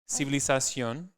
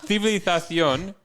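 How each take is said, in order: First: The z and c are plain s sounds. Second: The z and c are lisped th sounds. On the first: "that's just how you would say it in Spanish without the lisp" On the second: "and that was like not the best example"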